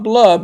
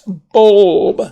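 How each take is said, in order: First: The L sound comes before the vowel. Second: The L sound comes after the vowel. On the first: The speaker calls it wrong. "they come out with blub. It's not blub" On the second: The speaker calls it right. "it's bulb"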